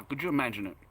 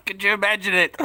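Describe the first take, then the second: First: Said in the usual way. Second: Laughing. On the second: Real, not acted. Repeats it laughing.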